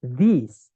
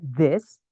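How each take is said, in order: First: "these" pronounced with an I vowel, like "dis"; these read with I. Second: "this" pronounced with an E vowel, like "des"; this read with E. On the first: Teacher showing students how written E is read, "these" with I. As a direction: model "these" with a clear I sound. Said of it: "itu bacanya I". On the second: Teacher showing students how written I is read, "this" with E. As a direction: model "this" with a short, open E. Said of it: "itu bacanya E ya". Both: Shown as a demonstration.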